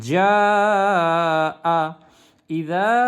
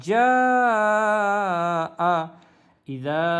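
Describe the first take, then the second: Both takes have the same delivery.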